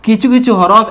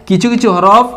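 No difference in how they are said.

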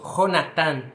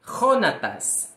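First: "Jonathan" com J gutural, som de R forte; Jonathan em espanhol. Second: Said in the usual way. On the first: Shown as a demonstration. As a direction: comece "Jonathan" raspando a garganta. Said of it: "Em espanhol se diz". ("Jonathan" dito à espanhola, J aspirado)

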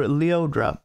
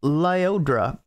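First: "Leodra" with LEE as first syllable; alternative pronunciation. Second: "Lyodra" with LIE as first syllable; first name pronunciation. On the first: Reviewer offering another way to say the singer's name, "Leodra". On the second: Reviewer introducing the singer by name, first pronunciation "[name]". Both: Shown as a demonstration.

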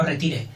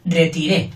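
First: Retire with the stress on ti, not the end. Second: Retiré with the stress on the final ré; stress on last syllable. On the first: Teacher contrasts the word he did not say, stress on ti. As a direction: put the weight on the middle ti of retire. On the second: Teacher tells a child which word he said, stressing ré. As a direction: lean on ré at the end of retiré. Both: Shown as a demonstration. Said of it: "dije retiré, no retire".

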